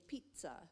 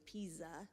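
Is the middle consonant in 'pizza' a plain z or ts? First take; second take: ts; plain z. First: The middle consonant is a ts sound. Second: The middle consonant is a plain z sound. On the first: The speaker calls it right. "we say pizza" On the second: The speaker calls it wrong. "it's not just a Z, we don't say pizza"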